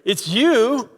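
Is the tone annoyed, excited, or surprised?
annoyed. It sounds annoyed, like an unwelcome arrival. The person's presence is unwelcome. "what are you doing here?"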